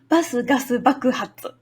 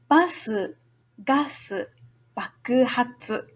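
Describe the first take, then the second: First: It is said fast. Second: It is said slowly.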